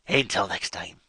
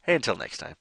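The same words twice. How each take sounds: First: It is said in a put-on pirate voice. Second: It is said in a plain natural voice.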